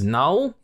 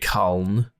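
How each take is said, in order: First: The first K is silent. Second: The first K is sounded. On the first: The speaker calls it right. "I would say that's a silent K" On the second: The speaker calls it wrong. "It's not going to be Kuln"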